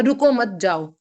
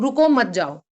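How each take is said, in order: First: रुको मत together, then जाओ; comma after मत. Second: रुको set apart from मत जाओ; comma after रुको. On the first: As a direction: break between मत and जाओ. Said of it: "रुको मत" के बाद कॉमा आएगा". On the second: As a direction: break after रुको, then मत जाओ together. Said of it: "रुको के बाद कॉमा है". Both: Shown as a demonstration.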